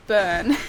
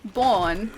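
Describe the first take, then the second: First: "burn" said with the er vowel, like the verb burn; right way. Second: "born" said with a round aw vowel, like corn; wrong way. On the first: Correcting US friends on Melbourne, clear er vowel. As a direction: land "burn" clearly with er, not or. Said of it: "how to say Melbourne". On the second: Showing US friends the wrong Melbourne ending, rounded vowel. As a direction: give "born" the wrong or vowel to show the mistake. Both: Shown as a demonstration.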